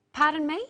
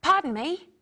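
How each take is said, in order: First: Said in the usual way. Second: "Pardon me" higher and louder; a clear model phrase. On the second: Shown as a demonstration. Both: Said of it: "Practice with me the different ways".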